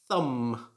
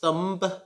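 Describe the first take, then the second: First: The word ends in a silent B. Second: The word ends with an audible B sound. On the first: The speaker calls it right. "You should pronounce this like thumb" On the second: The speaker calls it wrong. "It should not be pronounced thumb"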